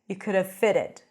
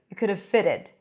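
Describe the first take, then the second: The two takes are said the same way.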